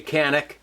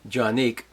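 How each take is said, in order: First: The name begins with a hard K sound. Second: The name begins with a J sound. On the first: This is the common American way of saying it. The speaker calls it wrong. "Most Americans say Canik" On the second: This is the original Turkish way of saying it. The speaker calls it right. "it's actually Jonick"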